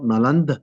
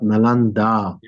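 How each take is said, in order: First: The word ends without a final vowel. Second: The word ends with a long final vowel. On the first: The speaker calls it wrong. "it is not Naland" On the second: The speaker calls it right. "the A at the end of Nalanda is the long A"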